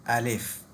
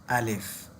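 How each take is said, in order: The two takes are said the same way.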